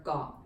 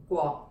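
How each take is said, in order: First: "Guo" without the w glide, plain g onset; lazy pronunciation. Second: "Guo" with the w glide after the g; proper G-W pronunciation. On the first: Teacher contrasts two forms for learners, lazy w-less "Guo". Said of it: "in the lazy pronunciation". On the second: Teacher contrasts two forms for learners, proper G-W "Guo". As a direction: pronounce "Guo" fully, keeping its G-W onset. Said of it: "properly pronounced as the". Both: Shown as a demonstration.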